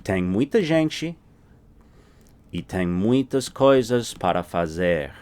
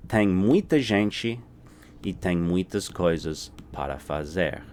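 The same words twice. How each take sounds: The two takes are said the same way.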